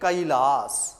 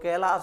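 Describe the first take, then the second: First: The first vowel is a gliding 'ai' sound. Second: The first vowel is a plain 'e' sound. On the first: The speaker calls it right. "क्या करेंगे?" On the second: The speaker calls it wrong. "जो अशुद्ध उच्चारण है"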